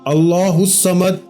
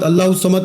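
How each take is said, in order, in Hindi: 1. हर शब्द धीरे और अलग-अलग बोला जाता है। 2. शब्द एक-दूसरे से जुड़कर जल्दी-जल्दी बोले जाते हैं। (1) "एक एक लफ्ज अलग अलग करके समझाया है" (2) "खुदारा ऐसे नहीं पढ़ना"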